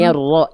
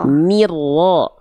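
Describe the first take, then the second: First: The first vowel sounds like an open e. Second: The first vowel sounds like a clear i. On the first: The speaker calls it wrong. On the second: The speaker calls it right. "Ni-nya tetap jelas, i-nya"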